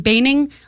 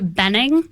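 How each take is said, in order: First: The first vowel is a long A sound. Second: The first vowel is a short E sound. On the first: The speaker calls it right. "the E and the H make a long A sound. So I always say Baning like raining" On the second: The speaker calls it wrong. "A lot of people say Benning"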